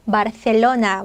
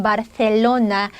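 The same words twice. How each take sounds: First: 바르셀로나 with a plain s sound for the c; Latin American s. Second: 바르셀로나 with a lisped th sound for the c; Spanish lisped c. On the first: Teacher showing the Latin American 바르셀로나 with a plain s. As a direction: say 바르셀로나 with a clean s on 셀. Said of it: "중남 사람들 발음은 그냥 바르셀로나". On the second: Teacher showing the Spain-style 바르셀로나 with a lisp. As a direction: say 바르셀로나 with tongue between teeth on 셀. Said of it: "스페인 스타일로 하면". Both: Shown as a demonstration.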